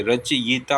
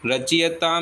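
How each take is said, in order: First: रचयिता said as "rach-yita"; correct vowel placing. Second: रचयिता said as "rachiyata"; wrong vowel placing. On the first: Teacher giving the correction, रचयिता said as "rach-yita". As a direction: put the i after y in रचयिता. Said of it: "य पे आती है". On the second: Teacher naming the mistake, रचयिता said as "rachiyata". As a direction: put the i after ch in रचयिता. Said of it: "ई की मात्रा च पे नहीं". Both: Shown as a demonstration.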